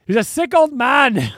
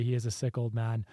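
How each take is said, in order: First: Loud, raised-pitch heckler imitation; mock heckle. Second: Said in the usual way. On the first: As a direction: holler it out like the heckler in the crowd. Re-enacts the heckler's shout.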